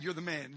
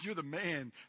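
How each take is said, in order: First: It sounds like a grave accusation. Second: It sounds like admiring praise.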